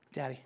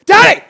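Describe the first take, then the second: First: Put-on soft, quick child's nudge; hushed imitation of a waking toddler; child prodding dad. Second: Sudden high, blaring yell; explosive high-pitched shout in imitation of a kid; imitated child's yell. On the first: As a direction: quietly try to rouse a sleeping dad. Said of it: "he starts prodding me". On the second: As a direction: yell like a toddler waking dad. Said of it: "like, yelling at me".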